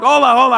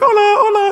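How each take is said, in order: First: It sounds annoyed and fed up. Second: It sounds delighted and charmed.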